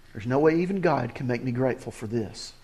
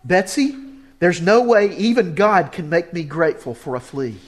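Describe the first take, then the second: First: Lower, softer private complaint; inner grumble. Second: Exasperated. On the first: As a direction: mutter it as your own doubt. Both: Retold or imitated. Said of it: "do you ever feel that way".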